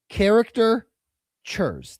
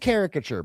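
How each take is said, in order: First: It starts like 'character', then 'churs'. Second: It starts with 'carica', then 'ture'. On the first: The speaker calls it wrong. "I think he said char- character, like the word character" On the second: The speaker calls it right. "The word is caricature"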